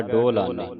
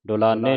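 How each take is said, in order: First: ਡੋਲਾਨੇ with a long "o" first; hora vowel. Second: ਡੋਲਾਨੇ starting with short "du"; wrong aunkar vowel. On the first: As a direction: hold the o in ਡੋਲਾਨੇ. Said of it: "ਹੋੜਾ ਲੱਗਾ ਹੈ". (ਡੋਲਾਨੇ, ਹੋੜੇ ਨਾਲ) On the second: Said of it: "ਔਂਕੜ ਦੇ ਨਾਲ". (ਡੋਲਾਨੇ, ਔਂਕੜ ਨਾਲ) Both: Shown as a demonstration.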